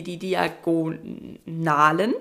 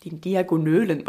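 First: Diagonalen stretched slowly, low; drawn-out word. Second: "Diagonölen" with ö for a; slip of the tongue. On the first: Shown as a demonstration. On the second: Real, not acted. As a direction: mispronounce "Diagonölen" with ö. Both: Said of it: "wollte ich grad sagen".

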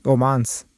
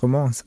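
First: Said in the usual way. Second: Romans with a nasal French ending, ro-mɑ̃s; French-style Romans. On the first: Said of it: "wir haben ja über, äh, Namen gesprochen und Aussprache". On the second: Shown as a demonstration. Co-host punning on the novel, French-sounding Romans. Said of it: "deswegen sage ich jetzt Romans".

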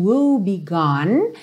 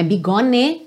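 First: "woe begone" slowly, final e silent; correct pronunciation. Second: "bigone" said with the final e sounded; wrong pronunciation. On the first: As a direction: end "begone" on the n. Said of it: "esse afinal não é pronunciado". ("begone" sem o e final) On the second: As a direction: show the wrong "bi-go-ne". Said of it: "Também não é". (pronúncia errada de "begone") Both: Shown as a demonstration.

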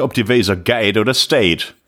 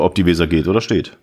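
First: Plattdeutsch pronunciation, slow; Low German. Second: Said in the usual way. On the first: Shown as a demonstration. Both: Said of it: "Plattdeutsch für".

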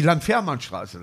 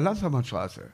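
First: Slow "Landfährmannstraße" with long, full "fähr"; criticised outsider pronunciation. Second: Softer, run-together "Landfährmannstraße" with a short "fer"; local pronunciation. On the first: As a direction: sound out every part of "Landfährmannstraße". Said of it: "die sie kritisiert haben dafür". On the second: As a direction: swallow the "fähr" in "Landfährmannstraße". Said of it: "Und wie wird da auswählen". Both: Retold or imitated.

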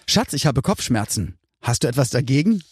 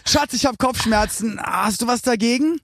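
First: Said in the usual way. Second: Higher sing-song reading of "Hast du was dagegen?", rising on "dagegen"; re-read with new stress. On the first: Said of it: "ich hab's falsch betont". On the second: Shown as a demonstration. Guest redoing the joke line with the stress fixed, sing-song. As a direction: lilt it up, lifting "dagegen". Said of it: "ich hab's falsch betont. Nochmal".

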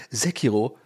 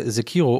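First: Sekiro as the pros say it; "Sekiro" in mock-expert pronunciation; pros' pronunciation. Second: Said in the usual way. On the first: Shown as a demonstration. Podcaster shows how the pros say it, mock-expert "Sekiro". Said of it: "wie die Profis sagen".

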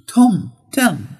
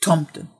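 First: "Tomten" slow, falling then lifting on the second syllable; tomten, accent two. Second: "Tomten" plain, falling, no second peak; tomten, accent one. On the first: Teacher contrasting Santa word, slow tonal "Tomten". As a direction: sing "Tomten" with the Swedish double tone. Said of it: "es hat einen anderen Akzent". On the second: Teacher giving the plot word, plain falling "Tomten". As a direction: say "Tomten" simply with one fall. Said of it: "Es ist einfach". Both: Shown as a demonstration.

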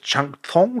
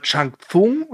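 First: "Chang Tsung" said as Tchang Tsong; alternative name pronunciation. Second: "Chang Tsung" said as Tsang Tsung; tentative name pronunciation. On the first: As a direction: say "Chang Tsung" with a tsch opening and an o in "Tsung". („Chang Tsung“ als Tschang Tsong ausgesprochen) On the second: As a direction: say "Chang Tsung" with ts opening both words. („Chang Tsung“ mit Ts am Anfang beider Wörter) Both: Real, not acted. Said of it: "Ich hoffe, das ist richtig".

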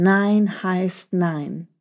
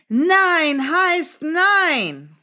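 First: Very slow, firm "Nein heißt nein", only mock shouted. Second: Very slow, high and stretched "Nein heißt nein"; firm no. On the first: Teacher repeats the mouse's shouted no, slow and firm. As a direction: spell out "Nein heißt nein" slowly, a light hint of a shout. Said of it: "hat richtig laut geschrien". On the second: Teacher shows children how to say no firmly. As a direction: draw out "Nein heißt nein" slowly and high, each word its own weight. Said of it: "hör gut zu". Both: Shown as a demonstration.

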